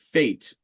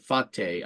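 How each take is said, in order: First: The word is said the English way. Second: The word is said the Italian way.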